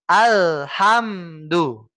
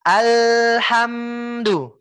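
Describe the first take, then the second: First: Very slow Alhamdu, cut off after Al and after ham; choppy wrong reading. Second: Slow Alhamdu, L and M pressed and held, then flowing on; pressed sukun. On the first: Teacher showing the wrong, broken-off sukun, very slow. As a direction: chop Alhamdu into broken pieces. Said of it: "suara akan terdengar seperti ini". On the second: Teacher showing the right, pressed sukun, slow recitation. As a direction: lean into the L of Alhamdu without stopping. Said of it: "Kita tekan". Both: Shown as a demonstration.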